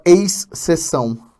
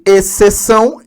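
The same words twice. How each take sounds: First: The 'xc' is said as two separate sounds. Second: The 'xc' is said as a single s sound. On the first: The speaker calls it wrong. "você não fala exceção. Só quem é do, do, do Carioca" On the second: The speaker calls it right. "só o C também"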